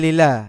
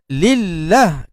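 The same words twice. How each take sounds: First: The doubled l sound is cut short. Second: The doubled l sound is held long. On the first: The speaker calls it wrong. "Dia tak tekan lillah" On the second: The speaker calls it right. "kena tekan"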